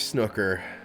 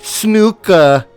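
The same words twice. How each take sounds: First: It is said in an American accent. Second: It is said in a British accent.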